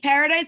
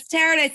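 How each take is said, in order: First: Said in the usual way. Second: Paradise said with an initial T; name with T. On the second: Shown as a demonstration. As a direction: say Paradise as "Taradise", T replacing the P. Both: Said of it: "but with a T".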